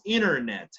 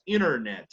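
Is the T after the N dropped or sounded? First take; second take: dropped; dropped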